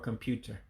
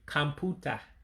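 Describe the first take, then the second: First: The word ends with an 'er' sound. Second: The word ends with an open 'ah' sound. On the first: This is the English form of the word. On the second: This is the Igbo form of the word.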